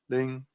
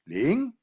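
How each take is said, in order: First: The pitch stays level across the word. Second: The pitch rises across the word. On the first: "One is flat"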